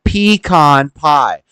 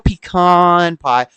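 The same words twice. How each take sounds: First: The stress in pecan is on the first syllable. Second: The stress in pecan is on the second syllable. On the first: The speaker calls it right. "you accentuate the P" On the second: The speaker calls it wrong. "We don't want no pecan pie"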